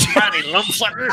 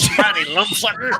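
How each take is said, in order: First: It is said in an angry Yosemite Sam voice. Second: It is said in an angry Yosemite Sam voice.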